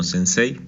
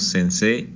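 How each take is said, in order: First: "sensei" said as written, ending in a two-vowel e-i glide; pronounced final I. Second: "sensei" said as sen-SEE with a long Spanish e, no i sound; long final E. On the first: Teacher showing the form to avoid, "sensei" with its final i sounded. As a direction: let the final i of "sensei" be clearly heard. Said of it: "y no sensei". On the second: Teacher showing students the spoken form, "sensei" with a long final e. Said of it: "por qué la pronunciamos sensei". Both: Shown as a demonstration.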